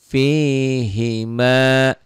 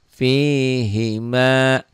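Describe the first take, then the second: Both takes have the same delivery.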